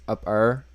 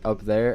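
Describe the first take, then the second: First: It is said in a country accent. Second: It is said in a standard accent.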